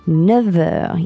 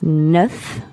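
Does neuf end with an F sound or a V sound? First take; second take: V sound; F sound. First: The word ends with a V sound. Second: The word ends with an F sound.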